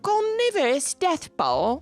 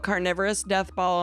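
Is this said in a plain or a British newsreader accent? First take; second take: British newsreader; plain. First: It is said in a British newsreader accent. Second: It is read in the speaker's ordinary accent.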